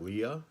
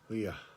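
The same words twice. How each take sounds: First: The word ends cleanly with no breath. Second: The word ends with an audible breath. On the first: The speaker calls it wrong. "It's not Leah" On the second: The speaker calls it right. "You have to get that breath at the end"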